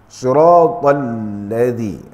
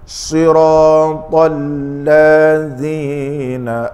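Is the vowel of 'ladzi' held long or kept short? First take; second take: short; long. First: The vowel after the 'l' is kept short. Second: The vowel after the 'l' is lengthened. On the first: The speaker calls it right. "lam itu tidak ada alif" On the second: The speaker calls it wrong. "maka dia mengubah makna sebab berlaku pertambahan satu huruf"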